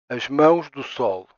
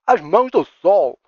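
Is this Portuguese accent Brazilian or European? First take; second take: European; Brazilian. First: It is said in a European Portuguese accent. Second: It is said in a Brazilian Portuguese accent.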